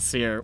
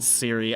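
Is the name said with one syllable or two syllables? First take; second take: one syllable; two syllables. First: It is said with one syllable, like seer. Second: It is said with two syllables, like see-ree. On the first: The speaker calls it right. "I want to pronounce it Seer" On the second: The speaker calls it wrong. "I don't want to pronounce it Siri"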